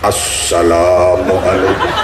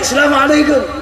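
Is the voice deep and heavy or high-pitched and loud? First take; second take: deep; high-pitched. First: It is said in an enlarged, deep, heavy voice. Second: It is said loudly at a high pitch. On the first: It is the greeting style of a preacher. "ceramah suaranya digede-gedeke" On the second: It is the greeting style used among friends in Arabia. "pakai nada tinggi, suara lantang"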